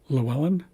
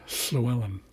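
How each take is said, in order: First: It starts with a plain English L sound. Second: It starts with a voiceless Welsh LL sound.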